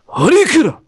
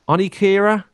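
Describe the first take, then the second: First: It is said in an exaggerated Japanese accent. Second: It is said plainly, without a Japanese accent.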